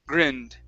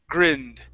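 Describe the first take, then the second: No difference in how they are said.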